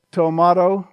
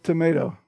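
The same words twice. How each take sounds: First: Tomato said as "toh-MAH-toh"; tomato, middle syllable rhyming with "spa"; broad-A pronunciation. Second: Tomato said as "tuh-MAY-toh"; tomato, middle syllable rhyming with "day", softer; long-A pronunciation. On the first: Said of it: "They said". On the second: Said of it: "He said tomato". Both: Shown as a demonstration.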